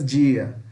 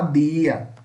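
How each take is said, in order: First: The d is a hushing dj sound. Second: The d is a plain d sound. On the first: This is how it is said in Portuguese. "Em português" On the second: This is how it is said in Spanish. "A gente fala dia"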